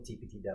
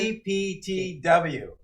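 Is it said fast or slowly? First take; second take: fast; slowly. First: The letters are said at normal speed. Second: The letters are said slowly.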